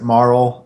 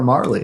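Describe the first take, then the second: First: The name is one syllable, ending in L. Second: The name is two syllables, ending in ee. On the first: The speaker calls it right. "I pronounce it Marl" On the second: The speaker calls it wrong. "if there was a Y, yes, sure, Marley"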